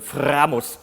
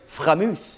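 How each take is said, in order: First: It is said with a German accent and strong R. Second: It is said with a French accent. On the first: "which is how you say it in German, Framus, with a big R" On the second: "Or maybe the French"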